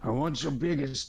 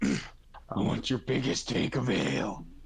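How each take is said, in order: First: It is said in his normal voice. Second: It is said in Angel's character voice.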